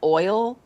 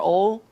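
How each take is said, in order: First: The vowel glides from o toward ee. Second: The vowel is a single flat sound. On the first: It is the way the speaker says it. "You mean oil?" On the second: It is the local way of saying it. "I had friends that said "ol,""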